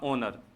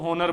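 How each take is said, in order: First: The word begins directly with a vowel sound. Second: The word begins with an audible H sound. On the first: The speaker calls it right. "एच silent होकर इसका होगा ओनर" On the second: The speaker calls it wrong. "कुछ बच्चे गलती कर देते हैं, इसको होनर बोल देते हैं"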